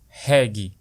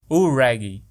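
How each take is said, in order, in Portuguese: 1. Ela é pronunciada à maneira do português brasileiro. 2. Ela é pronunciada à maneira inglesa.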